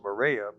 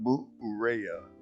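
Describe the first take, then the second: First: The name is said the visitors' English way. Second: The name is said the way locals say it. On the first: This is how visitors say it. "we pronounce it Morea" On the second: This is how the island's people say it. "the people there pronounce it Moorea"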